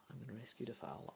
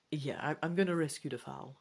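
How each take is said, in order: First: Much softer, fast repeat; a fast, quiet aside to yourself; quick mutter to self. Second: Said in the usual way. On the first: Real, not acted. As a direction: mumble the decision under your breath.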